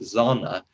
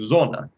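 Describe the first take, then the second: First: The vowel is said with a bright color. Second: The vowel is said with a dark color. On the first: The speaker calls it wrong. "she pronounced it very brightly like Zona" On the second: The speaker calls it right. "You have to sing Zona. It is darker"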